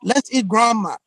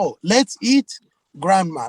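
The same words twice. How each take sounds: First: "Let's eat grandma" run together as one phrase, grandma as the food; "Let's eat grandma" with no break after "eat"; no pause before grandma. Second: "let's eat, grandma" with the comma heard as a gap; pause before grandma. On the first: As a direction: say "Let's eat grandma" straight through, no comma. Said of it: "not concerned about the proper context and the intonation". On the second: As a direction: lift "eat", break, then drop "grandma" as a name called. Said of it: "But with the proper intonation". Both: Shown as a demonstration.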